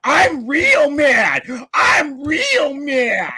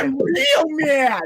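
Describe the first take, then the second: First: Slow, high, whiny mock of being mad; mocking a rival's tantrum, slow and high. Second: Mock crying. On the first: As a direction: drag it out to mock his anger. Mocking the angry opponent. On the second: Mocking the opponent again.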